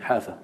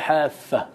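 First: The f sound is single and short. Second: The f sound is doubled and held longer. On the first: The speaker calls it right. "حافة بالتخفيف" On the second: The speaker calls it wrong. "لا حافة بالتشديد"

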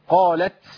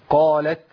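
First: The final t ends in a strong, sneeze-like burst. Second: The final t ends in a light, gentle breath. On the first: The speaker calls it wrong. "حد بيعطس فيكو؟ ما هو بيقولها كده" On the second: The speaker calls it right. "اهدى شويه... بس هو ده النفس"

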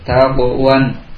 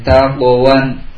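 First: The q sound bounces lightly before moving on. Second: The q sound bounces lightly before moving on.

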